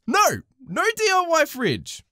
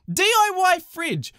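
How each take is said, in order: First: "no D I Y fridge" slow and punched like scolding; firm refusal. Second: "D I Y fridge" spelt out slowly, each letter hit; incredulous emphasis. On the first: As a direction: lay down the law on "D I Y". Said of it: "we do not sell D I Y fridges". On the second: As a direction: stretch out "D I Y" in disbelief. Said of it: "expected the fridge to be D I Y". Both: Pretend.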